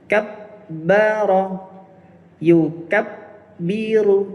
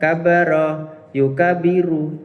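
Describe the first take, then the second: First: The doubled consonants are held long and strong. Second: The doubled consonants are said short and light. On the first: The speaker calls it right. "penekanan tasydid itu harus maksimal" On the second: The speaker calls it wrong. "kualitasnya jauh yang kita harapkan"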